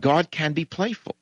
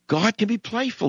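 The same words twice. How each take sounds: First: "playful" lifted with a rise at the end; stress on playful. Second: "be" pushed higher, falling after it; stress on be. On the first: Host insisting to listeners that God is "playful". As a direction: lean into "playful" and let it rise. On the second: Host insisting to listeners God really can "be" playful. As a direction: hit "be" hard, then let the line fall. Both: Shown as a demonstration. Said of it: "God is playful".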